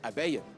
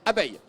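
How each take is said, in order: First: It is said casually, just mentioned in passing. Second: It is said deliberately, with a changed intonation. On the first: The word is only mentioned and has no effect. "Si je dis abeille, ça n'agit pas" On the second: The word is meant to trigger an effect. "l'intonation qui a changé, mais il y a surtout euh, l'intention qui compte"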